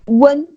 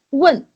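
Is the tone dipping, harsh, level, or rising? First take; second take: level; harsh. First: The pitch stays level and unchanged. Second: The pitch is one harsh, forceful strike. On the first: "It's one strike but neutral. It's the first tone" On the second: "it's also one strike... It's kind of harsh"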